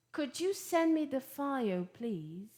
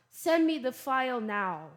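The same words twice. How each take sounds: First: Polite request. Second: Direct, firm command; blunt order. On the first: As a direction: ask courteously, easing down on please. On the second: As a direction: give it as a straight order. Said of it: "instead of saying". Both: Shown as a demonstration.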